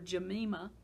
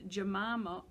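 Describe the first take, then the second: First: The name has an African pronunciation. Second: The name has a non-African pronunciation.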